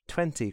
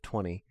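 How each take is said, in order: First: The word is said with a British accent. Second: The word is said with an American accent.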